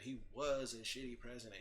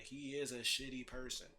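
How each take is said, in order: First: WAS emphasized against what is true now; past-tense "was" stressed, falling end. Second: IS emphasized against the past tense; present-tense "is" stressed, falling end. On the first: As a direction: lean on the word "was". Contrasts was with is. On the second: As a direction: lean on the word "is". Contrasts is with was. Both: Real, not acted.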